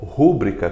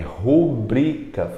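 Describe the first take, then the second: First: The stress is on the first syllable. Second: The stress is on the second syllable. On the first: The speaker calls it wrong. "como se tivesse um acento no U" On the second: The speaker calls it right. "É rubrica"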